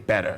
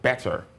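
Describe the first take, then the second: First: It is said in a strongly American accent. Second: It is said with a rhotic R at the end. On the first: "if I get really American" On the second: "consider the rhotic factor"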